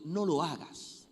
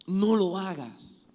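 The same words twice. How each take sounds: First: Said in the usual way. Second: Slow, higher and louder repeat; drawn-out insistent warning; emphatic warning. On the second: Acted. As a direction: plead with them firmly.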